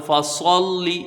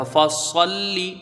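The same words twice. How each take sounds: First: Put-on فصلی with the lam said heavy and full, the way the kids get it wrong. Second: فصلی chanted slowly with a light, thin lam; correct thin lam. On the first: Teacher imitates the children's heavy-lam mistake. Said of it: "بچے کہتے ہیں ... لام بھی پر". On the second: Teacher models the correct thin-lam reading for students. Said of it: "لام یہاں پر باریک پڑھا جائے گا". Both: Shown as a demonstration.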